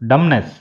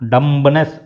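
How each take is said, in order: First: No b sound is heard after the m. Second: A b sound is heard after the m. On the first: The speaker calls it right. "దాన్ని ఏమని చదవాలంటే డమ్నెస్" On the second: The speaker calls it wrong. "డంబ్నెస్ అని చదవకూడదు"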